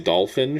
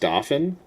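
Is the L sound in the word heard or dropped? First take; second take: heard; dropped. First: The L sound is clearly pronounced. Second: The L sound is left out. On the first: This is the normal way to say it. The speaker calls it right. "She can't say dolphin" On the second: This imitates someone who cannot say L's. The speaker calls it wrong. "My mom struggles with um, L's"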